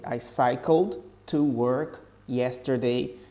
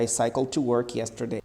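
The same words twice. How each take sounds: First: It is said slowly and carefully. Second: It is said at normal conversational speed. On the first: "a pronúncia fica assim" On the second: "Falando normal"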